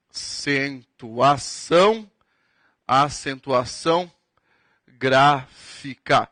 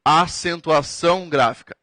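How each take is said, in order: First: Very slow, spaced out for note-taking; dictating word by word; slow dictation. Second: Said in the usual way. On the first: Shown as a demonstration. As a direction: spell it out slowly so they can write. Teacher repeats term for dictation.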